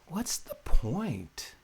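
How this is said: It is asked in an open, curious way. The asker is open to discovering an answer. The speaker calls it right. "One opens you up to be in the inquiry"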